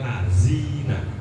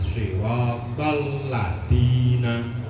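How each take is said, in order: First: The consonant is a buzzing z sound. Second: The consonant is a plain hard d sound. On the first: "Orang kota kan biasanya dal itu jadi ya kan lazina. Jadi apa? Jadi z lah" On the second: "dal dal diganti dal, ini nggak sah sholat"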